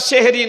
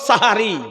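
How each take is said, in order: First: The first syllable has an 'e' vowel. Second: The first syllable has an 'a' vowel. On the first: The speaker calls it wrong. "শব্দটা সেহেরি নয়" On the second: The speaker calls it right. "সিনের ওপরে জাবার হবে"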